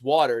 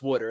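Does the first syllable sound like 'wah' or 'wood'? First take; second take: wah; wood. First: The first syllable sounds like 'wah'. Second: The first syllable sounds like 'wood'. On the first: "there is no O in that word. It is water" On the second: "And he goes, no, it's water"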